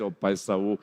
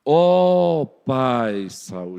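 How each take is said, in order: First: Said in the usual way. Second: Slow, drawn-out reverent address; respectful David. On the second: Acted. David honouring Saul despite persecution, slow and reverent. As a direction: honour him, very slowly. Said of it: "observem a diferença".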